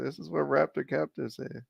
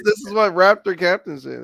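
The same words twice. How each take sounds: First: Softer. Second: Louder. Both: Shown as a demonstration.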